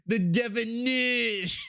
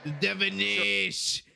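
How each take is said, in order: First: "definition" drawn out slowly, rising at the end. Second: Said in the usual way. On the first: Shown as a demonstration. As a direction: savour the word "definition", stretched slow with an upturn. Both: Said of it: "I'm gonna use that every time".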